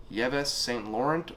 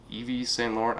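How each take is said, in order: First: Yves read as spelt, "YEV-ess", slowly; unsure pronunciation. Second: Yves said as "EE-vee"; alternative pronunciation. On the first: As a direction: say "Yves Saint Laurent" starting with two-syllable YEV-ess. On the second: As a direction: try "Yves Saint Laurent" starting with EE-vee, no s. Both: Shown as a demonstration. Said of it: "I'm not sure how to pronounce it".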